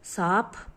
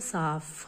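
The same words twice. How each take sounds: First: The final consonant is an aspirated ph sound. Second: The final consonant is an f sound.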